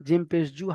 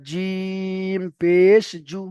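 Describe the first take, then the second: First: জিম পেশ জু said short, no held vowels; running pace. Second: জিম held very long, then stretched পেশ জু; drawn-out recitation. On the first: Teacher runs through the list, জিম পেশ জু unstretched. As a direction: run জিম পেশ জু together briskly. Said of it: "একটু running বলে দিলাম". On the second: Teacher shows the required three-alif stretch, very drawn out. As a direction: chant জিম পেশ জু slowly with long vowels. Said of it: "এই ঢঙে পড়তে হবে". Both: Shown as a demonstration.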